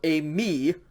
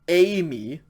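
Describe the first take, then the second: First: The stress is on the second syllable. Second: The stress is on the first syllable. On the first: It means I am. "accent on the second syllable is I am" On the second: It means I will go. "with the accent on the first syllable is I will go"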